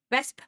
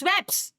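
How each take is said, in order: First: "wesp" with a V-like W, the S before the P; proper Dutch "wesp", said firmly; correct Dutch word. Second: "webs" with the P and S swapped, pitch rising; the mixed-up take "webs", rising like a question; wrong, swapped sounds. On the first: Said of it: "no, it's". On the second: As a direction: say "webs" as the common mix-up of "wesp". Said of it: "no, it's wesp". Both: Shown as a demonstration.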